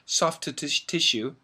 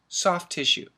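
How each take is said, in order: First: The two words are said separately and fully. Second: The two words are run together quickly. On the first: The speaker calls it wrong. "we don't say soft tissue" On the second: The speaker calls it right. "when we say it fast, we say soft tissue"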